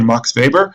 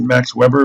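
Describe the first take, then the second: First: The name is given a German-style pronunciation. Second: The name is given an English-style pronunciation. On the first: The speaker calls it right. "so say Max Weber" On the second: The speaker calls it wrong. "You can pronounce it Max Weber, but uh, scholars at least will think you sound kind of dumb"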